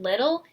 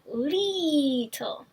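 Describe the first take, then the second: First: The first vowel is short and plain. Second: The first vowel is stretched into a long ee. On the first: "instead of saying little" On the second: "he said leetle"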